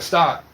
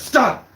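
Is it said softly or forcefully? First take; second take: softly; forcefully. First: It is said fairly softly, not strong. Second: It is said forcefully and loudly.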